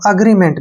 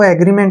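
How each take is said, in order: First: The first vowel sounds like 'uh'. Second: The first vowel sounds like 'ay'. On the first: "और अग्रीमेंट भी पढ़ सकते हैं" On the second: "आप इसको एग्रीमेंट भी पढ़ सकते हैं"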